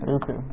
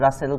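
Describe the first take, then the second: First: The first vowel is a rounded 'oo' sound. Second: The first vowel is an open 'ah' sound. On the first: The speaker calls it right. "যার যেটা নামের সম্মান এটা দিতে হয়" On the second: The speaker calls it wrong. "কেউ রাসেল উচ্চারণ করেন না"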